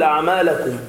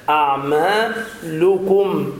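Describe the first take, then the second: First: أعمالكم with a on the lam, "a'malakum"; careless vowel slip. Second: أعمالكم slowly, higher, with a clear "lu"; damma on lam. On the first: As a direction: imitate the slip, fatha on ل in أعمالكم. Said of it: "بدون انتباه تقول". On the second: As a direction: stretch أعمالكم to "a'maa-lukum". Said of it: "بضم اللام". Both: Shown as a demonstration.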